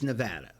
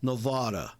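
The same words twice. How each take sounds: First: It is said the way Nevadans say it. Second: It is said the way New Yorkers say it. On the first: The speaker calls it right. "but it's Nevada" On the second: The speaker calls it wrong. "people from New York who go... and they say Nevada"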